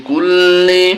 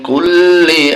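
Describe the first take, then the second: Both takes have the same delivery.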